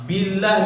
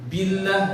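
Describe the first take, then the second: Both takes have the same delivery.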